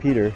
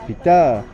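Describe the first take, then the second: First: The stress is on the first syllable. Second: The stress is on the second syllable. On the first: The speaker calls it wrong. "not Peter" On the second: The speaker calls it right. "Usually the second syllable of the name is stronger than the first"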